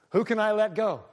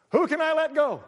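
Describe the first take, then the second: First: Mock president. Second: Hammed-up president. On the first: Imitating a president. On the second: Imitated again, higher and louder.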